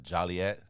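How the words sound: Joliet is said the way Chicagoans say it.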